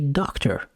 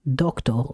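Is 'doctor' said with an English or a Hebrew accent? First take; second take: English; Hebrew. First: It is said with a plain English accent. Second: It is said with a strong Hebrew accent.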